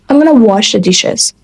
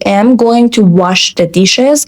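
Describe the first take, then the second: First: Going to is reduced to gonna, connected. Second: Going to is said in full, carefully.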